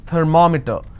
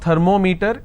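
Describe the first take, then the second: First: The stress falls before the 'meter' part. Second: The stress falls on the 'meter' part. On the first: The speaker calls it right. "it's thermometer" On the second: The speaker calls it wrong. "It's not thermometer"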